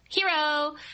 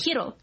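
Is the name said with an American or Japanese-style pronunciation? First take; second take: American; Japanese-style. First: The name is said like the English word hero. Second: The name is said with a Japanese-style pronunciation. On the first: The name is pronounced like the English word. "instead of Hero or whatever" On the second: The name is pronounced as in its original language. "pronounce Hiro's name the correct way"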